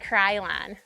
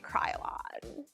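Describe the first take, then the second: First: It is said in a Michigan accent. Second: It is said in a California accent.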